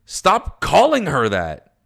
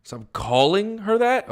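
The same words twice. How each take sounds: First: Stern loud order. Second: High, rising disbelief, slow; stunned repeat, voice climbing high; incredulous echo. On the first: Character scolding another character. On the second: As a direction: throw the order back as a baffled question. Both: Acted.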